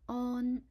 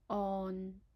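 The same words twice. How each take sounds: First: It is said in Cantonese tone one. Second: It is said in Cantonese tone six. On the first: "Its first tone is on" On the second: "and the sixth tone on"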